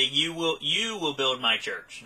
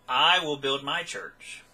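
First: "you" repeated and leaned on, drawn out; stress on YOU. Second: Slow line with "I" held and emphasized; stress on I. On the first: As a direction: put the weight on the word "you". Misquote contrasted with the real words. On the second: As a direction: land firmly on the word "I". Corrects the misquote. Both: Shown as a demonstration.

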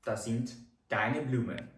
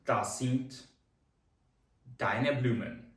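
First: Said in the usual way. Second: German sentence broken in two, paused between halves; split model sentence. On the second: Shown as a demonstration. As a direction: pause after Das sind, then deine Blumen. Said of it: "це твої квіти".

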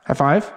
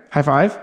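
The two takes are said the same way.

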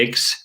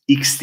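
First: "X" opened with an e, "eks". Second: "X" said the Turkish way, "iks". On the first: Teacher corrects students' letter name, "X" as "eks". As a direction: say "X" the English way, "eks". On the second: Teacher shows students the mistaken reading, "X" as "iks". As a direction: say "X" with an ee-like opening, "iks". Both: Shown as a demonstration. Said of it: "X değil arkadaşlar".

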